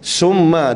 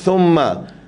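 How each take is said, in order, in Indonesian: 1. Bunyi awalnya 's'. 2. Bunyi awalnya 'th'. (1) "kita baca summa dengan sin" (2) "makhraj thumma"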